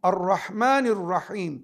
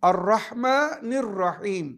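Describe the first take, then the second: The two takes are said the same way.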